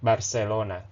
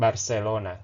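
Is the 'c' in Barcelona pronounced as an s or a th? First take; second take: s; s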